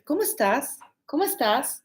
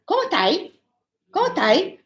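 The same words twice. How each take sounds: First: "¿Cómo estás?" in full, final s sounded; higher, careful "¿Cómo estás?" like a learner's drill; every sound of "estás" pronounced; correct textbook Spanish. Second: High, quick-fire "¿Cómo 'tai?"; "¿Cómo estás?" cut down to "cómo tai"; Chilean colloquial form. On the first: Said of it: "very correct, complete". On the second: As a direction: pitch jumps up on a slurred "cómo tai". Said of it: "But then, uh". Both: Retold or imitated.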